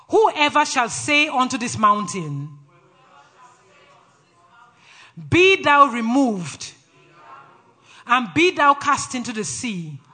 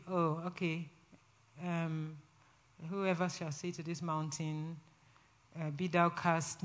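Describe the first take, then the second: First: Slow, loud, emphatic call-out; authoritative scripture declaration. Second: Very soft, low, hesitant mumble; sleepy, without conviction. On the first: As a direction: declare it line by line with power. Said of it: "Say it with authority". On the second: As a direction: read it half-asleep, with no belief in it. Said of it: "Not in a sleepy way". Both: Shown as a demonstration.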